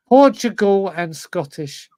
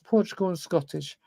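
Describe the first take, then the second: First: Louder and slower, every word of "Portugal and Scottish" pressed out; emphatic repeat. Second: Said in the usual way. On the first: Real, not acted. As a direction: drag "Portugal and Scottish" out, willing it to happen. Repeating needed nationalities, emphatic.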